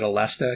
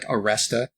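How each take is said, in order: First: The second consonant is an L sound. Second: The second consonant is an R sound. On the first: "I call it Alesta" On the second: "like the way they pronounce it in Japan, which was actually like Aresta with an R"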